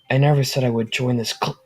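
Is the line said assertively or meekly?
meekly. It is said meekly, without force.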